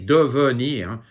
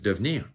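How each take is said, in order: First: The second e is pronounced as a syllable. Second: The second e is dropped from the word. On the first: "The second E, it, you can say devenir" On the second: "but mostly it's just devenir"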